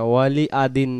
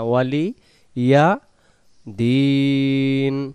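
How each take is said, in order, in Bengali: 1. Wali সরাসরি একটি স্বরধ্বনির সাথে যুক্ত হয়, কোনো y ধ্বনি নেই। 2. wali-র পরে স্বরধ্বনির আগে একটি স্পষ্ট y ধ্বনি শোনা যায়। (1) "ওয়ালি আ হবে না" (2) "শব্দ আলাদা করে নিলেই উচ্চারণটা সুন্দর হয়ে যাবে"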